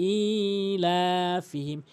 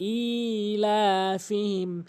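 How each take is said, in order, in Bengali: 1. প্রথম স্বরটি টেনে লম্বা করা হয়। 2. প্রথম স্বরটি টেনে লম্বা করা হয়।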